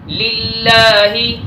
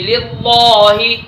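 First: The L in Allah is pronounced light and thin. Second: The L in Allah is pronounced heavy and thick. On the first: The speaker calls it right. "सही पढ़ने का तरीका" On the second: The speaker calls it wrong. "ये मोटा है, ये गलत पढ़ा जा रहा है"

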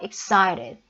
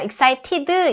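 First: The t is softened into a quick flap. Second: The t is pronounced as a clear t. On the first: The speaker calls it right. "excited 이렇게 들리는 거예요" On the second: The speaker calls it wrong. "excited 이렇게 안 하고"

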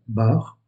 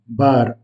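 First: The final R is not rolled. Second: The final R is lightly rolled. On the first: This is the French pronunciation. "en français, le mot bar se prononce de cette façon" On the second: This is the Portuguese pronunciation. "en portugais, on roule légèrement le R à la fin"

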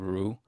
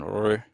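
First: The R is followed by a 'u' vowel. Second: The R is followed by an 'i' vowel. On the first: "or with a U" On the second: "pronounced as with an I"

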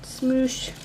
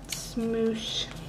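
First: It is said in a plain voice. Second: It is said with a weird little twang.

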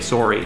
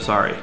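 First: It is said in a Wisconsin or Canadian accent. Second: It is said in a plain general Midwest accent. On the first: "in some places they say sorry" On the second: "instead of sorry"

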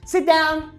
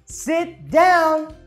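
First: It is said very fast. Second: It is said somewhat faster.

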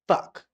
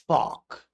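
First: It is said in an American accent. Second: It is said in a British accent. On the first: "This is the American pronunciation" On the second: "and Alfie Solomon's"

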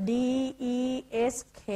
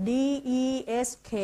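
No difference in how they are said.

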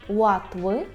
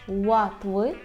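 Both takes have the same delivery.

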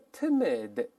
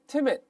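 First: The word is slow with a released final d. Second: The word is quick with an unreleased final d. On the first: "读慢了叫timid" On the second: "读快了之后最后那个的失去爆破"

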